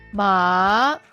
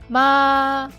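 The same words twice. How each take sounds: First: The pitch rises from low to high. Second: The pitch stays high and level. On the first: Hemp or jute. "The second tone, low to high" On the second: Mom. "The first tone, high and flat"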